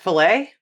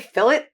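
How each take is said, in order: First: The final T is silent, ending in an ay sound. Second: The final T sound is clearly pronounced.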